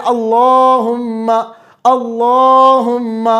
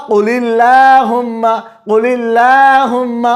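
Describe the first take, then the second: First: اللہم very slow with a full heavy ل after zabar; heavy lam. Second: قل اللہم slow, with a light thin ل after the zer; thin lam. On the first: Teacher contrasts heavy lam in اللہم. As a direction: recite اللہم slowly, thick lam. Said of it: "اللہ پڑھا جاتا ہے جب الف پر زبر ہو". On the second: Teacher contrasts thin lam after zer. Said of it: "لیکن جب زیر آئی پیچھے". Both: Shown as a demonstration.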